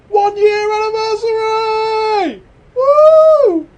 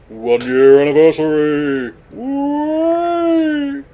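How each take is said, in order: First: It is said in a very high voice. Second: It is said in a lower voice.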